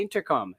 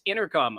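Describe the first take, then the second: First: "intercom" with the T clearly sounded; Canadian pronunciation. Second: "intercom" slurred into "innercom"; American pronunciation. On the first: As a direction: say "intercom" properly, crisp T in "inter". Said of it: "we pronounce our words properly". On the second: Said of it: "say it like you're drunk". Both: Retold or imitated.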